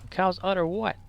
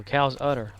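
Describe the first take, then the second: First: Higher-pitched, baffled comic partner asking back; puzzled double-act question, rising at the end; Abbott and Costello. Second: Lightly played straight man naming the thing; understated comedy-duo statement, falling at the end; Abbott and Costello. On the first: Acted. Partner misunderstanding the udder line, higher puzzled comic question. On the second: Comic feeding a line to his partner, lightly played double act. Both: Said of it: "Like Abbott and Costello".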